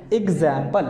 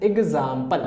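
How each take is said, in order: First: एग्जाम्पल with an "a" as in cat, "ig-ZAM-pal"; एग्जाम्पल with a front æ in the middle; first pronunciation variant. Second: एग्जाम्पल with a long "aa", "ig-ZAAM-pal"; एग्जाम्पल with an open "aa" as in father; second pronunciation variant. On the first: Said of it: "दो तरीके से हम इसको". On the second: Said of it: "इसे इस तरीके से बोला जाता". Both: Shown as a demonstration.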